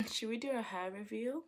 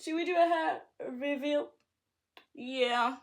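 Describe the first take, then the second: First: Said in the usual way. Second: Excited. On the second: Acted.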